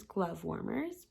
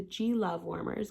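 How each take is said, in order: First: Said in the usual way. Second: "G Love" as two words, LOVE brought out; emphasis on LOVE. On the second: Shown as a demonstration. Naming the Valentine's glove warmers, emphasis on Love. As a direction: split it into "G" and "Love", leaning on Love. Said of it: "so emphasis on the love".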